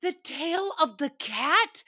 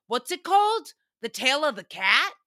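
First: Slow, higher incredulous echo; mock disbelief. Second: A hint of a confused guest asking; quoting a guest. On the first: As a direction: repeat it as if you can't believe it. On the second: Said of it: "he goes".

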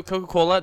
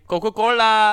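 First: Said in the usual way. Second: Coca-Cola sung out high and loud like an ad jingle; announcer-style Coca-Cola. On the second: Shown as a demonstration. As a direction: belt out Coca-Cola as a sponsor plug. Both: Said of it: "I mean, Coca-Cola".

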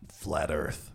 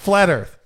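First: "Flat Earth" said low and soft; deflated announcement. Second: "Flat Earth" announced loud and bold; dramatic announcement. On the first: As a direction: let "Flat Earth" fall flat. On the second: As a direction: punch out "Flat Earth" like a headline. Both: Shown as a demonstration. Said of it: "So, so anticlimactic".

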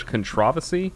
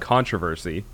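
First: Controversy with the second syllable stressed, con-TROV-ersy; British pronunciation. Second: Controversy with the first syllable stressed, CON-tro-ver-sy; US pronunciation. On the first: Retold or imitated. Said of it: "is the enunciation in British English". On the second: Shown as a demonstration. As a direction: say controversy the American way, hitting CON. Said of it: "In the U S, it's".

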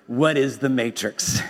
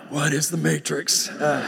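First: Said in the usual way. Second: A lightly voiced stunned Neo; a hint of a dumbfounded hero; mock dazed Neo. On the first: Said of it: "and then he says". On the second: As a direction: say it like you're utterly lost, half laughing. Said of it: "But more like".

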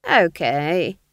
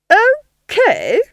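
First: Casual, loud rising okay; easygoing old witch; unbothered agreement. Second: Shrieked, high incredulous echo; scandalised villainess squawk; outraged disbelief. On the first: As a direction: shrug it off lightly. Nanny's unbothered reply. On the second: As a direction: throw it back, loud and high. Duchess echoes Nanny in disbelief. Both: A narrator's reading.

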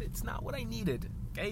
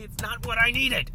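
First: High-pitched, held-back protest; mock upset. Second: High, loud hammed-up protest; mock outburst. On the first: Imagined offended gate lady protests, mock upset and soft. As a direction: pitch it up but keep the volume down. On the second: Imagined offended gate lady snaps, loud mock upset. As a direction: burst out, pitched way up.

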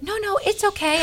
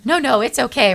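First: Much higher, mock-dainty no thanks; imitating polite refusal. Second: Said in the usual way. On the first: Reluctant woman declining prayer, imitated high and polite. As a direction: wave it off in a high put-on voice.

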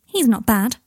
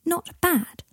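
First: NOT BAD as a plain statement; casual verdict. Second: Indignant, much higher echo question; protesting. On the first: Teddy rating Scorpius's flying, NOT BAD said as a verdict. Teddy rates his friend. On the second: Boy objecting to Teddy's verdict, high-pitched protest. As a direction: throw "Not bad?" back, pitched high and falling. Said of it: "protested Scorpius". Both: A narrator's reading.

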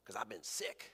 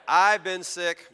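First: Small, much softer mouse reply; barely bother to answer; weak mouse. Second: Louder, higher, stressed "I've been sick"; punchline repeated. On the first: Acted. Tiny field mouse answers lion. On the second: Shown as a demonstration. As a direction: deliver the punchline again with a punch. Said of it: "That's my way of telling you".

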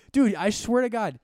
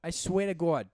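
First: High, loud, drawn-out exclamation; exasperated outburst. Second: Higher, louder Boston oath; Boston accent. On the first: Ranting to a cohost over hash browns, exasperated outburst. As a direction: burst out in comic exasperation. Exasperated rant about Dunkin'. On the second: Exasperated over a missing hash brown, Boston accent. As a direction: drop the r like a Bostonian. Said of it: "that's so Boston". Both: Acted.

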